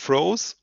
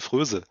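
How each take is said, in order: First: The vowel is a long oh sound. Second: The vowel is a rounded front ö sound. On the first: This is how it is said in Canada. "in Kanada sagen sie" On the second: This is the German reading of the spelling. "würde man deutsch aussprechen"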